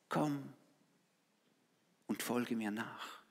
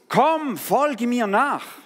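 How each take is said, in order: First: It is said very quietly, almost inaudibly. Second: It is called out loudly.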